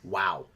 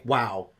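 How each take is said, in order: First: It sounds sarcastic and disappointed. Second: It sounds genuinely impressed and amazed.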